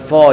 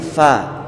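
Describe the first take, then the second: First: The syllable is read thick, sounding like 'fo'. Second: The syllable is read thin, sounding like 'fa'. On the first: The speaker calls it wrong. "bukan fo ya" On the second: The speaker calls it right. "fa dibaca di tipis"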